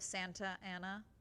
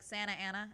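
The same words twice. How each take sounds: First: Every sound is said in full. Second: Some sounds are dropped from the middle. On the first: This is the standard way to say it. "instead of Santa Ana" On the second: This is how locals say it. "we chop out the like Santa Ana"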